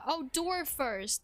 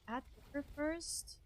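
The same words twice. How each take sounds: First: Realization. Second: Puzzled. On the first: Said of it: "That's what you meant". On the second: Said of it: "What do you mean add door first?". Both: Real, not acted.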